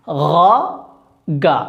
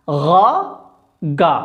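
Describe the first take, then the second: Both takes have the same delivery.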